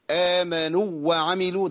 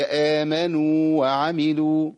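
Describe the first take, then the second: First: "آمنوا" with the long waw cut short into "وعملوا"; shortened madd in "آمنوا وعملوا"; wrong merged waw. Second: Slow, with the madd waw of "آمنوا" held; "آمنوا" held long, clear of "وعملوا"; correct recitation. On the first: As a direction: clip the u of "آمنوا". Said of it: "ده خطأ". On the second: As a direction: hold the u of "آمنوا" two beats, then "وعملوا". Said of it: "هي". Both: Shown as a demonstration.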